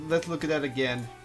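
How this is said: It is said in a flat, bored tone.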